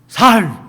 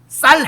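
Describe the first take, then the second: First: The word starts with a plain s sound. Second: The word starts with a tense s sound. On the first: The speaker is from the other tribe and is exposed. The speaker calls it wrong. "에브라임 사람들은 쌀이 안 되는 거예요" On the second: The speaker is a local who can say it. The speaker calls it right. "쌀 해봐. 이러는 거야"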